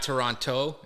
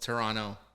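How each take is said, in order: First: The second T is clearly pronounced. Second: The second T is dropped, ending in no. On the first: Someone not from the city says it this way. The speaker calls it wrong. "So it's not Toronto" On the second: A real local says it this way. The speaker calls it right. "don't say the T. We say Toronto with a no at the end"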